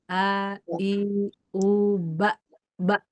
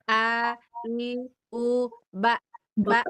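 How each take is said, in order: First: The sounds are pushed from deep in the throat. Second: The sounds come from the mouth and sound shrill. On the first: The speaker calls it right. "Hentakannya kerasa ke situ" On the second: The speaker calls it wrong. "kalau Ibu salah, ya, kalau Ibu dari sini nih, dari mulut ya"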